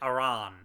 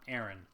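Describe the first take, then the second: First: It sounds unlike the common first name Aaron. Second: It sounds like the common first name Aaron. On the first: The speaker calls it right. "I pronounce it Aran" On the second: The speaker calls it wrong. "not Aaron, because Aaron is an actual normal name"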